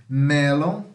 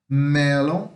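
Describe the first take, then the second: Both takes have the same delivery.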